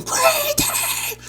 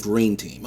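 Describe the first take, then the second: First: Very high yelled "Green team!"; high pitched retold scream; screamed team call. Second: Said in the usual way. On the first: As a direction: call out the team name while running across the map. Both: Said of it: "'Cause I ran and screamed".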